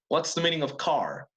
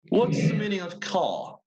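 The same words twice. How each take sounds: First: It is said in an American English accent. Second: It is said in a British English accent. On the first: "in American English" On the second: "that was British English"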